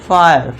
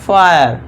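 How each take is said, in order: Both takes have the same delivery.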